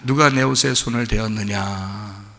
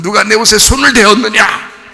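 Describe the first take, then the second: First: It sounds warm and loving. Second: It sounds stern and frightening.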